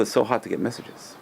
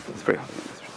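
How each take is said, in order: First: Said in the usual way. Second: Soft, breathy whisper of the same line; hushed repeat. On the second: Shown as a demonstration. Repeats line, second time hushed.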